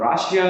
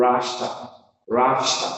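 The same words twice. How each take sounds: First: Russia in three syllables, "RA-shi-a"; common mispronunciation. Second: Russia in two syllables, "RUSH-uh"; stress on first syllable. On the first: Teacher showing the wrong Russia, "RA-shi-a". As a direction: say Russia with an extra "ee" before the last A. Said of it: "it is not Russia". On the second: Teacher drilling correct Russia, two-syllable "RUSH-uh". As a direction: punch "RUSH" and swallow the ending of Russia. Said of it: "First syllable is stressed". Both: Shown as a demonstration.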